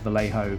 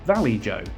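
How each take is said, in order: First: The j is said like an h sound. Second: The j is said like the j in joe. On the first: The speaker calls it right. "I know that the brand is Vallejo" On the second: The speaker calls it wrong. "my original video where I kept saying it wrong"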